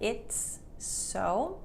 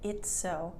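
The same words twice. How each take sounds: First: The S sound is said twice, separately. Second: The two S sounds blend into one. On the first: The speaker calls it wrong. "Instead of sa saying the S sound twice" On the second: The speaker calls it right. "it's only said once"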